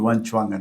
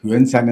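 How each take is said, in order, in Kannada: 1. ಎರಡನೇ ಭಾಗ 'ch' ಶಬ್ದದಿಂದ ಶುರುವಾಗುತ್ತೆ. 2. ಎರಡನೇ ಭಾಗ 's' ಶಬ್ದದಿಂದ ಶುರುವಾಗುತ್ತೆ. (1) "ಸರಿಯಾದ ಒಂದು ಉಚ್ಚಾರಣೆ" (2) "ಯುಎನ್ ಸಾಂಗ್ ಅಂತ ಹೇಳ್ತಾರೆ"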